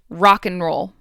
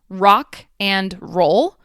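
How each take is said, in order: First: The word 'and' shrinks to an N sound. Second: The word 'and' is said in full.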